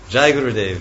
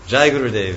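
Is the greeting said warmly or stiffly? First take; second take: warmly; warmly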